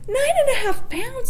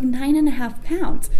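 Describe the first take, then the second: First: Much higher, incredulous rising question; mother hearing the huge weight estimate, shocked and high; shocked disbelief. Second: Lightly voiced technician, slow and even; tech's matter-of-fact estimate. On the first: Retold or imitated. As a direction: gasp it back as if the number can't be real. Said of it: "So I lost it". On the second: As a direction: read the weight out slowly, like routine news. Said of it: "she's like".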